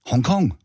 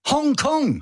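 First: Said in the usual way. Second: Hong Kong sung out high and bright; high emphatic. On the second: Real, not acted. Repeated answer, pitched way up.

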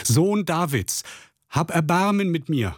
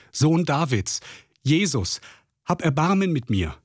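First: Sehr hoch und langsam gedehnter Schrei; noch lauter schreien. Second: Hoch gerufener Hilferuf, nicht lauter; laut rufen. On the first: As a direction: verzweifelt flehend, Stimme ganz nach oben. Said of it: "schrie noch viel lauter". (Bettler schreit trotz Verbot zu Jesus, hoch flehend) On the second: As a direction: bettelnd aus der Ferne rufen, Stimme hoch. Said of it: "rief er laut". (blinder Bettler ruft Jesus an, hoch flehend) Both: A narrator's reading.

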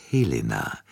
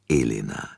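First: Helena said with a clear breathy H at the start. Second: Elena said with no H, starting on the vowel; without the H. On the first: Poirot correcting the countess's name, Helena with an H. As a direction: sound the H in Helena. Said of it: "nicht Elena". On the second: Poirot contrasting the false name, Elena without H. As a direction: drop the H in Elena. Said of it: "Ihr Name lautet Helena". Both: Acted.

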